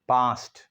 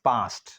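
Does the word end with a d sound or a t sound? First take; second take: t sound; t sound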